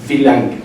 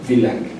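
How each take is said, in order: First: "wie lange" clearly, ending "lange" with a falling tune; pronunciation demo. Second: "wie lange" repeated softer, still falling; softer repeat demo. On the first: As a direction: model "wie lange" for learners, falling at the end. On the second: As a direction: quietly echo "wie lange" for learners. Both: Shown as a demonstration. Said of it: "y la pronunciación es".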